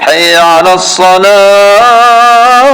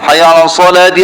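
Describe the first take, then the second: First: The word ends with a stopped 'ah' sound. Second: The word ends with a linked 'ti' sound. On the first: The phrase stops at this word. The speaker calls it wrong. "Jangan hayya 'alas salah" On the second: The phrase continues into the next words. The speaker calls it right. "kalau nak sambung kena baca hayya 'ala salati"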